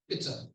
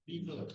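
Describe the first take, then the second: First: The first vowel is short, as in 'bit'. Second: The first vowel is long, as in 'bee'. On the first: The speaker calls it right. "It's an I sound which is short" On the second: The speaker calls it wrong. "What I heard the person say was beta"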